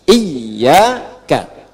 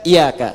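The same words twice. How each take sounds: First: "Iyyaka" with long doubled y, opening on i; correct tasydid reading. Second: "iyyaka" said as iya-ka, single y; without tasydid. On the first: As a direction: model "Iyyaka" lower, holding the double y. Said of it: "Dibacanya apa?". ("Iyyaka" dengan kasrah dan tasydid yang ditahan) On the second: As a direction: say "iyyaka" quickly through an undoubled y. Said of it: "jangan dibaca iyyaka". ("iyyaka" tanpa tasydid, jadi iya-ka) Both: Shown as a demonstration.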